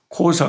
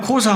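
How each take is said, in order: First: The word is said with a click sound. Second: The word is said plainly without a click. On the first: "꼭 무슨 똑소리가 하나 나면서 발음을 해요" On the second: "그냥 코사 하면 될 건데"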